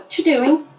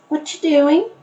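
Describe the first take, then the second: First: The words are squeezed into a very short form. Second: The word are is dropped and words run together. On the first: "sometimes it becomes even shorter"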